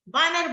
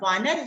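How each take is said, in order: First: The word begins with a b sound. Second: The word begins with a v sound. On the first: The speaker calls it wrong. "प्राय बच्चे बानर बोलते हैं" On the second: The speaker calls it right. "शुद्ध रूप उसका वानर है"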